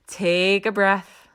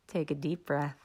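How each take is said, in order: First: Said in the usual way. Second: Much softer, lower, soothing breath cue; soft calming. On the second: Shown as a demonstration. Coach calming a panicked listener, soft and low. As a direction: ease them down into the breath.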